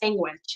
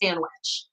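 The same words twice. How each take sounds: First: It is said with a Spanish-influenced pronunciation. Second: It is said with a standard English pronunciation. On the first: This is how Spanish speakers typically say it. "I also grew up saying sandwich" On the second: This is the usual English way of saying it. "instead of sandwich"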